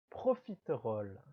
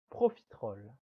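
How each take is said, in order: First: Every syllable is said, including the middle e. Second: It is said quickly with the middle e dropped.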